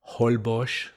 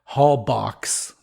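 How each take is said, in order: First: The name has the local pronunciation. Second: The name has an American pronunciation. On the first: "the way they say it in, what is that, Mayan" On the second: "the way the Americans say it"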